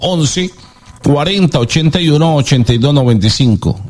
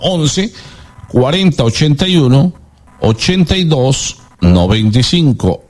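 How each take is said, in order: First: The number is said at normal speed. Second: The number is said slowly.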